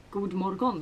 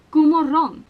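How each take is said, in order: First: God morgon with each written letter sounded, d and g included; spell-read god morgon, softer; every letter pronounced. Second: God morgon with letters dropped, louder and higher; Swedish pronunciation. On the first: Swede showing what people probably think, every letter in god morgon. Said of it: "like you pronounce all of the". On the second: Swede showing not all letters are sounded, natural God morgon. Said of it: "That's how I pronounce it". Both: Shown as a demonstration.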